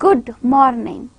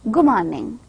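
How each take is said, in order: First: The d in 'good' is fully pronounced. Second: The d in 'good' blends into the m. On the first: "in actual speed we do not actually pronounce good morning" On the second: "In rapid speed we will say good morning"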